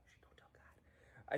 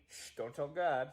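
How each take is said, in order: First: It is said quietly. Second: It is said too loudly.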